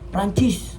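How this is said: The word is said forcefully, like a command. It orders someone to do something. "seperti memerintah"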